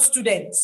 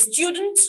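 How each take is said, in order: First: Student said as stoo-dent with no y; student without the glide; wrong student. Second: Student said as styoo-dent; student with a y glide, styoo; British student. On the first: Retold or imitated. Teacher showing the form to avoid. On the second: Shown as a demonstration. Teacher giving the British form. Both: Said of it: "not student".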